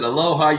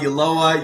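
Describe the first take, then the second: First: The name starts with a plain vowel sound. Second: The name starts with a 'y' sound. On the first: The speaker calls it wrong. "Sometimes people pronounce it Aloha" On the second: The speaker calls it right. "You did it perfectly"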